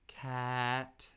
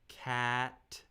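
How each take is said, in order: First: The pitch stays high, steady and level. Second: The same.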